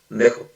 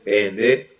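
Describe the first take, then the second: First: Only the last two syllables are said. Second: All three syllables are said in full. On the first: "Siempre nada más dice dejo" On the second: "así la palabra tal cual"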